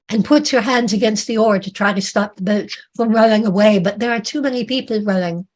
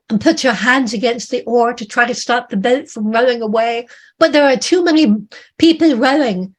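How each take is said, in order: First: Said in the usual way. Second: Urgent narration. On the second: A narrator's reading. Narrator straining against the rowing, urgent. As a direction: build to an urgent climb on too many people.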